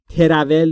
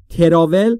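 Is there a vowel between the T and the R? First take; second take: yes; yes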